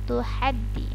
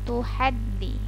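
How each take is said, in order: No difference in how they are said.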